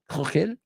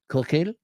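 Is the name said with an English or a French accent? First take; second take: French; French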